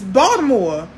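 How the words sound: The word is said with a D sound. This is how locals say the city's name. "It's Baltimore with a D"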